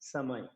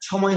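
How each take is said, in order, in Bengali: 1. প্রথম ধ্বনিটি একটি স্পষ্ট 's' ধ্বনি। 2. প্রথম ধ্বনিটি একটি আকাঙ্ক্ষিত 'chh' ধ্বনি। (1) "এটা হচ্ছে এস এর মতো" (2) "ছর মতো হলে সময় হয়ে যাবে।"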